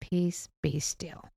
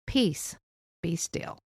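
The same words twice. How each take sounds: First: Slow and soft, after a deep breath; calm, slow peace. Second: Calmly. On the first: Shown as a demonstration. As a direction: breathe out and say it gently, slowly. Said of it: "take a deep breath and say". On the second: Retold or imitated. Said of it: "very calmly".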